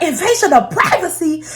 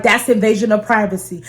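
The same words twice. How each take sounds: First: High-pitched, outraged mock disbelief; incredulous echo. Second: Said in the usual way. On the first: Mom echoing her daughter's privacy complaint, incredulous. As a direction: throw it back as an indignant question. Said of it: "she was going off on me".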